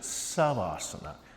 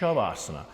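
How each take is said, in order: First: The word begins with a plain 's' sound. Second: The word begins with an 'sh' sound. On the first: "Bikram and Vishnu Ghosh pronounce it Savasana" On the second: "The proper Sanskrit, I've been told, ... is Shavasana"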